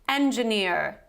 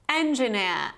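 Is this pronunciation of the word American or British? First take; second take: American; British. First: It is said in an American accent. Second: It is said in a British accent. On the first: "So the American version would sound as follows" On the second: "This is the British pronunciation"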